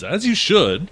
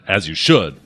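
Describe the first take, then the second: First: It is said in a calm, friendly tone. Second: It is said in an angry, harsh tone. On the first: It is meant as friendly advice. "you might have meant it the first way" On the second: It is meant as an angry rebuke. "they might have read it the second way"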